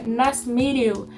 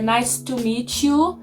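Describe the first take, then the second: First: The T in meet is soft, almost silent. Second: The T in meet is strong and clearly released. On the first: The speaker calls it right. "se ele fosse falar de uma maneira um pouco mais suave" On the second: The speaker calls it wrong. "ele não falaria"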